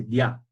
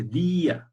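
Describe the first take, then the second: First: Dia glided into one syllable, dya, with no break. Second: Día in two syllables, dí-a, the í clearly stressed. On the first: Teacher gives her pupils the wrong reading, dia. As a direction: run the vowels of dia together. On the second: Teacher contrasts the correct día for her pupils. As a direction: split día into dí and a. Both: Shown as a demonstration. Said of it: "Ya no se dice día, se dice dia".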